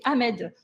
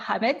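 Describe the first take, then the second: First: The name begins without any h sound. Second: The name begins with an audible h sound. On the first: This is the name adapted to French pronunciation. "on ne prononce pas le H" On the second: This is the name's original pronunciation. "c'est pas Ahmed"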